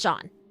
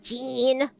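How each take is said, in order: First: It does not sound like the word jeans. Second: It sounds like the word jeans. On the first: The speaker calls it right. "It just simply is Jean" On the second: The speaker calls it wrong. "It's not Jean. What are they? A pair of pants?"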